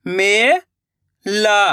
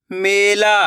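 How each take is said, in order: First: Mela drawn out slowly, syllable by syllable; slow syllable split. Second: Said in the usual way. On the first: Shown as a demonstration. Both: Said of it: "मैं किस तरीके से".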